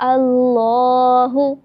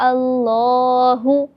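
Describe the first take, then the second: The two takes are said the same way.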